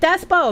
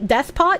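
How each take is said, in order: First: The word ends without any T sound. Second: The word ends with a pronounced T sound. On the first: "I'm going to keep pronouncing it Despo" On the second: "yes T"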